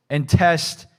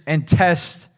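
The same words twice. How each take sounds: The two takes are said the same way.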